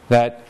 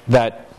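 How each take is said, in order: Both takes have the same delivery.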